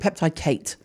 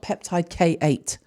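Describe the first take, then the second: First: The last part is one syllable, like a name. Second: The last part is two syllables, letter then number. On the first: The speaker calls it right. "It's fucking peptide Kate" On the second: The speaker calls it wrong. "It's not peptide K eight"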